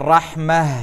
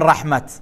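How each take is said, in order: First: The word ends with a soft h sound. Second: The word ends with a t sound. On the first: The speaker calls it right. "ئەڵێن ڕەحمە" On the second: The speaker calls it wrong. "ناڵێن ڕەحمەت"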